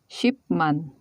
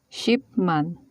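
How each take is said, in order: Both takes have the same delivery.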